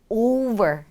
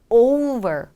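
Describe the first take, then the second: Both takes have the same delivery.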